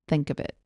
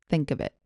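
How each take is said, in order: Both takes have the same delivery.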